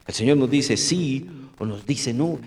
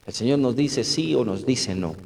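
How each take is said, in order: First: "el Señor nos dice sí o nos dice no" slowed down, "Señor" stressed with a rise; slow emphatic restatement. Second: Said in the usual way. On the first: Shown as a demonstration. Preacher hammering his point home to the congregation, slowly. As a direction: spell it out slowly so it sinks in.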